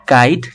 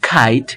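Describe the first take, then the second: First: Said in the usual way. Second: খাইট with a puffed k, "khite"; aspirated K. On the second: Shown as a demonstration. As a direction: burst air into খাইট. (খাইট মহাপ্রাণ খ দিয়ে) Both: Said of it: "খ এর মতো হবে".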